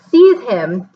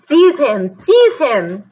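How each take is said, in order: First: Loud sudden scream of an order. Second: High, loud repeated shriek. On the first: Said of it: "Voldemort screamed". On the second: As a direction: shriek it twice, losing control. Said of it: "shrieked Voldemort". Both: A narrator's reading.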